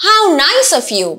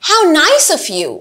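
Both takes have the same delivery.

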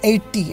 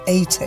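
First: It is said in an Indian accent. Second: It is said in a British accent. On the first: "And the Indians say 80" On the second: "the British say 80"

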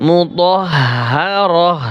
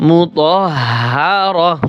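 Both takes have the same delivery.

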